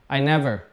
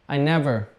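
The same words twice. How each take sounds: Both takes have the same delivery.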